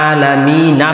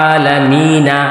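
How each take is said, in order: No difference in how they are said.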